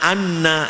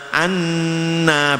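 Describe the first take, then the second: First: The nasal hum on the n is cut short. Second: The nasal hum on the n is held long. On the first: The speaker calls it wrong. "itu namanya korupsi dengung" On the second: The speaker calls it right. "bacaannya harus ditahan dulu"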